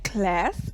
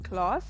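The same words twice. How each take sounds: First: It is said in an American accent. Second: It is said in a non-American accent.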